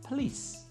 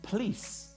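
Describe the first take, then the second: First: The unstressed vowel is left out. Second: The unstressed vowel is fully pronounced.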